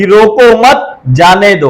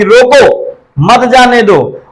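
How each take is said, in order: First: Slow रोको मत, break, then जाने दो; second reading, split after मत; pause after मत. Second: Slow रोको, break, then मत जाने दो together; first reading, split after रोको; pause after रोको. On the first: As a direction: attach मत to रोको, stop before जाने दो. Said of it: "दूसरा कह रहा है". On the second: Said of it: "पहला वाला कह रहा है". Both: Shown as a demonstration.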